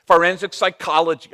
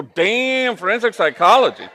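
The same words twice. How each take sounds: First: Said in the usual way. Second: Much higher and louder, amazed; impressed surprise. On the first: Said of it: "She was very quick". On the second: Retold or imitated. Priest reacting to the daughter's answer with loud amazement.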